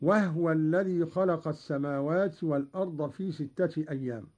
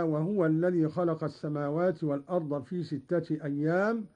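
First: Two syllables in وهو, h closing the first; no u after the ه of وهو; vowelless ha. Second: Said in the usual way. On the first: Shown as a demonstration. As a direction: recite وهو as "wahwa". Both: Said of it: "بإسكان الهاء".

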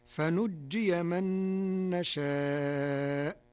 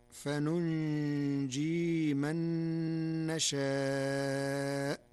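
First: فنجي with a single nun and a doubled jim; slow recitation of فنجي من نشاء; standard reading. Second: فننجي with two nuns, the first with damma and the second silent; slow Warsh recitation of فننجي; Warsh reading. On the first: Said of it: "قرأ ورش كلمة فنجي". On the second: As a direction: say فننجي as fa-nun-jee with a light jim. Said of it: "بنونين، الأولى مضمومة والثانية ساكنة". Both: Shown as a demonstration.

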